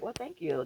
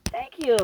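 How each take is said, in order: First: Said in the usual way. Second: A bright, pointed Thank you; emphatic thanks. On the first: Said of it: "That's all". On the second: Shown as a demonstration. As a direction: Thank you said higher and louder, with the stress on you.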